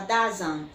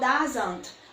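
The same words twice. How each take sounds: First: The final T sound is left off. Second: The final T sound is clearly pronounced. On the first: "Esse T vai sumir da tua pronúncia" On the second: "se for doesn't"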